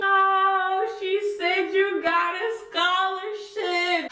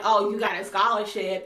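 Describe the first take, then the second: First: High, slow singsong taunt; hammed-up instigating chant from the background; egging-on friends. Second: Said in the usual way. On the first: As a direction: gas it up in a high, drawn-out singsong. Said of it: "my friends were in the background". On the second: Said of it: "How are you gonna insult me".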